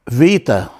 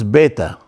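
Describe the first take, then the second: First: The name begins with a V sound. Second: The name begins with a B sound. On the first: The speaker calls it wrong. "No V, no Vita" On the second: The speaker calls it right. "They always pronounce the B beta, like B"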